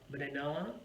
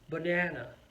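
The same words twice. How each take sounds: First: The stress is not on the second syllable. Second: The stress is on the second syllable. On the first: The speaker calls it wrong. "it's not going to sound very good" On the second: The speaker calls it right. "it's on the second syllable"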